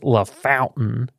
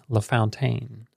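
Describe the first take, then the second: First: The name ends like the plain word 'fountain'. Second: The name ends with a 'fountaine' sound. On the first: It is how locals say the name. The speaker calls it right. "they like correct you kind of snobbily, like, ugh, it's La Fountain" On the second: It is how the name looks when read. The speaker calls it wrong. "my brain wants to say La Fountaine"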